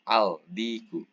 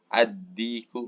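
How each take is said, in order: First: The L is pronounced clearly before the D. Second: The L merges into a doubled D sound. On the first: The speaker calls it wrong. "nggak bisa dibaca al-diku" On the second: The speaker calls it right. "Maka dibacanya harus dengan uh, tasydid"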